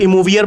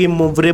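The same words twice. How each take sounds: First: "इमोवियर" ending in -viyar; the -vi-yar variant of "इमोवियर"; variant pronunciation. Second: "इमोवरे" ending in -vre; the -vre form of "इमोवरे"; pronunciation shown. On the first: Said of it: "बोलते हैं कई लोग". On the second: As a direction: say "इमोवरे" as i-mov-re. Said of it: "इमोवरे बोलते हैं". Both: Shown as a demonstration.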